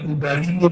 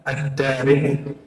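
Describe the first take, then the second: First: The name begins with a 'u' sound. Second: The name begins with an 'ad' sound. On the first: The speaker calls it wrong. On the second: The speaker calls it right.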